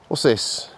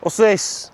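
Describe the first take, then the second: First: Said in the usual way. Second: 1 high excited dog-talk. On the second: Real, not acted. Pointing out something to dog.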